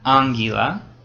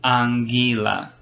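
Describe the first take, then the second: First: The stress is on the first syllable. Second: The stress is on the second syllable. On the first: The speaker calls it wrong. "It's not anguila" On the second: The speaker calls it right. "It's the second one"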